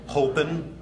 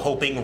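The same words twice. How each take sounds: First: The ending is a plain 'n' with the g dropped. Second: The ending is a full 'ng' sound. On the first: "A lot of it's just an N apostrophe" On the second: "instead of hoping"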